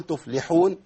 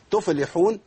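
First: تفلحون with the fa barely heard; تفلحون as the mistaken lost fa; swallowed fa. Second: تفلحون with the fa given a vowel, wrong; تفلحون as the mistaken moved fa; moving the fa. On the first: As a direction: slur the fa in تفلحون. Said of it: "والفاء ما تبانش معايا". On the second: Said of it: "وحرك الفاء". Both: Shown as a demonstration.

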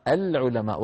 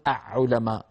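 First: "العلماء" as al-ulama, L clearly sounded; clear lam. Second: "أعلماء" as a'-'ulama, L gone, ayn doubled; wrongly assimilated lam. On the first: Teacher showing the moon-letter rule, "العلماء" pronounced al-ulama. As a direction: say "العلماء" with a distinct L before the ayn. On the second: Teacher showing what not to say, "أعلماء" pronounced with doubled ayn. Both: Shown as a demonstration. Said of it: "ولا نقول".

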